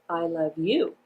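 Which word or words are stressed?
you. The emphasis falls on the word you. "I'm going to place the emphasis on the word you"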